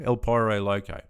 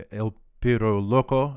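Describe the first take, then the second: First: El Pyro Loco with Pyro said "pie-roh" and Loco "loh-koh"; Aussie pronunciation. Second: El Piro Loco with Piro said "peer-oh" and Loco "lock-oh"; Spanish-style name. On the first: Streamer shows chat how Australians say it, "pie-roh". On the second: Streamer reads the name to chat the Spanish way, "peer-oh". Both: Shown as a demonstration. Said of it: "That's how it would be in Australia".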